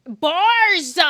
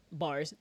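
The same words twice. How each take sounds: First: BARS blasted high and long; exaggerated shout. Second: Said in the usual way. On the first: Shown as a demonstration. Streamer playing with a word, exaggerated shout. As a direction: bellow the one word.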